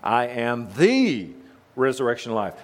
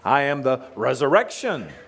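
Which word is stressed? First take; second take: the; resurrection. First: The stress is on "the". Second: The stress is on "resurrection".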